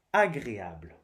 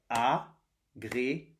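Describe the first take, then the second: First: Said in the usual way. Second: "Agréable" slowly as a, gré, a, ble; split into syllables. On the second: Shown as a demonstration. Teacher tapping syllables for pupils, "Agréable" slowly split in four. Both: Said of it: "on frappe les syllabes".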